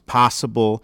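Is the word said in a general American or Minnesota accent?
Minnesota. It has a wider, opened-up Minnesota vowel. "becomes possible"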